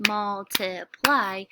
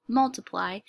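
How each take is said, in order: First: "multiply" slow, in three beats, MUL, TI, PLY; syllable by syllable. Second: Said in the usual way. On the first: Shown as a demonstration. Teacher shows how to clap the syllables, "multiply" slowly broken up. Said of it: "and then clap the syllables". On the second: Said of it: "if you read the word".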